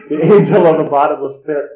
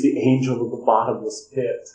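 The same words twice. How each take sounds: First: Higher, louder mock-grand declaration; loud proclamation. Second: Said in the usual way. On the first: Madman in the hospital names himself, loud grand proclamation. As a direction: proclaim it like a doom-laden title.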